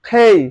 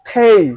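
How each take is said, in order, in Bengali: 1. k ধ্বনিটিতে বাতাসের জোরালো ফুঁ থাকে। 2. k ধ্বনিটিতে বাতাসের জোরালো ফুঁ থাকে।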